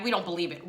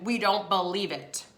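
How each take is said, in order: First: Said in the usual way. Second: "We don't believe it" slowed, word by word; emphatic disbelief. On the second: Retold or imitated. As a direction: draw out "don't believe it" deliberately. Repeated slowly for emphasis.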